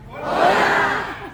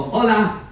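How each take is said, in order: First: High, stretched hola call; high hola cheer. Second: Bright short greeting call; cheerful hola. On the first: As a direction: sing out hola to the room. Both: Shown as a demonstration. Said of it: "I need all of you to go".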